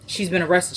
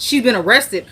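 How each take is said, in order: First: Softly retold bad news; reluctant news. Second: Lightly acted shocked husband; mild retold disbelief. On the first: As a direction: break it to him in a soft voice. Breaks bad news in retelling. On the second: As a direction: echo it back as a startled question. Husband reacts to the news.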